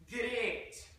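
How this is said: It is said Scottish style, with a stretched vowel. "in Scotland, they would say the word in a similar fashion, but with much more emphasis on the A sound"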